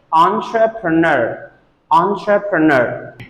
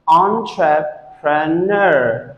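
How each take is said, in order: First: ENTREPRENEUR joined as on-truh-pruh-NUR; said together. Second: ENTREPRENEUR slowly as on, truh, pruh, NUR; broken into syllables. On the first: Teacher puts the word back together, said together. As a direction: run entrepreneur's syllables together as one word. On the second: Teacher breaks the word apart for students, broken into syllables. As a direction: separate each syllable of entrepreneur. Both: Shown as a demonstration. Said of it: "If you say it together".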